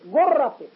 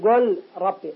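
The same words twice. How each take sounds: First: The l sound merges into the following r. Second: The l sound is pronounced separately. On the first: The speaker calls it right. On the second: The speaker calls it wrong.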